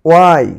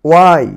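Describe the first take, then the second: Both takes have the same delivery.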